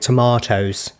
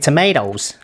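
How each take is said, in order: First: Tomatoes has the British 'mah' vowel. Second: Tomatoes has the American 'may' vowel. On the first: This is how she actually says it. "She's saying tomatoes" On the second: This is how the speaker expected her to say it. "Isn't it tomatoes?"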